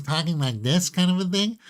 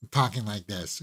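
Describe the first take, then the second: First: High, rising head-voice placement; head voice demo. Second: Said in the usual way. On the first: Shown as a demonstration. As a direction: lift the voice up into your head as you talk. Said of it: "within the head voice". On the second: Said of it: "belting it, talking like this".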